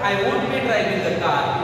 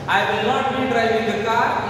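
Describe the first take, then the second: First: The negative is said contracted as one word. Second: The negative is said in full as two words.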